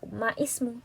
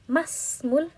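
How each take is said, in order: First: An i vowel is heard between ma and smu. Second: No vowel is heard between ma and smu. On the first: The speaker calls it wrong. "kita bukan baca ma ismu" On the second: The speaker calls it right. "tapi masmul mudiri"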